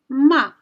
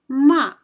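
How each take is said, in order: Both takes have the same delivery.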